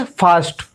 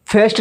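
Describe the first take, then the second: First: फास्ट said as "faast" with a long aa; correct reading. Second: फास्ट said as "fest" with an e vowel; wrong reading. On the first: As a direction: land फास्ट cleanly on a long aa. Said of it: "क्या पढ़ेंगे?". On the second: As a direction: mispronounce फास्ट with a flat e sound. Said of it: "फास्ट नहीं पढ़ेंगे". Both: Shown as a demonstration.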